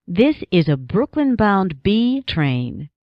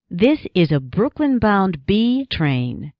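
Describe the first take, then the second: No difference in how they are said.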